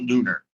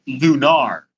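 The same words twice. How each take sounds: First: "Lunar" rhyming with "sooner"; "Lunar" as LOO-ner. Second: "Lunar" ending in an open "ar", like "car"; "Lunar" as loo-NAR. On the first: Co-host rejecting a pronunciation, "Lunar" said LOO-ner. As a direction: say "Lunar" with a reduced -ner ending. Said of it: "not Lunar". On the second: Co-host checks the game's name, "Lunar" said loo-NAR. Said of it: "not Lunar. It's Lunar". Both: Shown as a demonstration.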